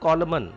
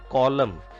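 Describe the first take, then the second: First: The final N sound is pronounced. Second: The final N sound is silent. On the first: The speaker calls it wrong. "It is not column" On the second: The speaker calls it right. "N is silent here"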